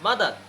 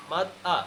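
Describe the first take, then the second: First: মাদার with the R at the end pronounced; final R sounded. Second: মাদ আ in two parts, ending in open "aa"; silent final R. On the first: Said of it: "মাদারের লাস্টে চলে আসে". (মাদার, শেষের র উচ্চারণ করে) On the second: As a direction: sound out "mad, aa" without R. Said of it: "কি হবে?". (মাদ আ, র ছাড়া ভেঙে বলা) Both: Shown as a demonstration.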